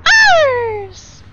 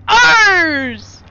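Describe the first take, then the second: First: Much higher and louder retake; loud very high shriek of ours; bigger dramatic shout. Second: Loud, high reveal; loud high cry of ours; dramatic shout. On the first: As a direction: belt it as the twist. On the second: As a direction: shout it out as a big twist. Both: Acted.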